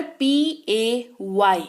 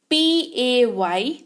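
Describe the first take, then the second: First: 1 slow spelling. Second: Drawn-out spelling to the class; very slow spelling. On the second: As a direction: spell पी ए वाई very slowly, letter by letter. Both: Shown as a demonstration. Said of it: "ये इसको कहते हैं पे".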